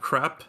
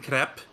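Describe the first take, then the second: First: The word is said in a plain accent. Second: The word is said in a foreign-sounding accent. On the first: The speaker's normal way of saying it. "instead of crap" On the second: A habit picked up from someone else's speech. "I keep saying crap"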